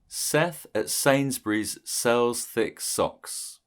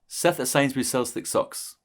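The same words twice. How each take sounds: First: The sentence is said slowly. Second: The sentence is said quickly. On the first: "we'll take it slowly" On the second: "we'll do it a bit faster"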